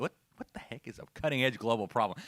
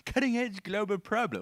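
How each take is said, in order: First: Said in the usual way. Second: Higher, mocking British accent on the phrase. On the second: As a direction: send up the clip in a British accent. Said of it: "And in that British accent".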